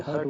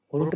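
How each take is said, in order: First: हर्ट with an unrounded uh; short U sound. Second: हर्ट said with a rounded oo or oh; wrong rounded vowel. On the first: Teacher correcting the reading, हर्ट with uh. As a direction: say हर्ट with an open uh before r. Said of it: "हर्ट बोलेंगे". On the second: Teacher rejecting a misreading, हर्ट with rounded vowel. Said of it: "हर्ट नहीं बोलेंगे". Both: Shown as a demonstration.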